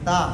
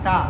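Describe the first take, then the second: First: The tongue tip touches behind the teeth. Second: The tongue sticks out between the teeth. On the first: The speaker calls it right. "ज़ुबान की नोक दांतों की जड़ में लगेगी" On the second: The speaker calls it wrong. "ऐसे ज़ुबान बाहर निकालते हैं ता, तो ये गलत है"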